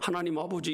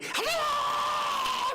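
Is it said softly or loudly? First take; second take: softly; loudly. First: It is said slowly and softly. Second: It is said in a loud shout.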